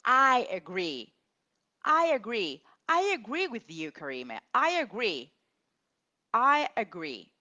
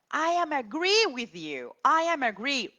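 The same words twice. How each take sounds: First: Louder, emphatic "I agree"; loud, emphatic teacher model "I agree"; correct model. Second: Much higher, louder imitation of a student; higher mock student voice on "I am agree"; mock student error. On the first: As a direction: drill the correct form firmly. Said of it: "So we just say". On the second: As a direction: play the student confidently getting it wrong. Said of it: "Wrong again". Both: Shown as a demonstration.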